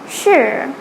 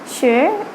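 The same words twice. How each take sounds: First: The pitch dips down, then rises. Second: The pitch rises like a question. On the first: "the third sure" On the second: "the second sure"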